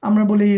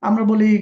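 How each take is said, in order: No difference in how they are said.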